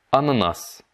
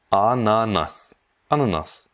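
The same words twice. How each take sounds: First: Said in the usual way. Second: "Ananas" drawn out syllable by syllable; slowed-down model. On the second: Shown as a demonstration. Teacher breaks down the Russian for pineapple, very slow. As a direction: stretch "A-na-nas" slowly, each vowel long.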